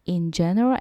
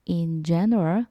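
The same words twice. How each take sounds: First: It is read quickly and confidently. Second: It is read slowly and carefully, word by word. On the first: "좀 더 빨리" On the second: "또박또박 한번 읽어볼게요"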